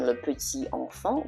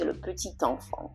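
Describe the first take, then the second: First: The words are said separately, without linking. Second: The T runs into the next word. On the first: The speaker calls it wrong. "instead of saying" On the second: The speaker calls it right. "we say"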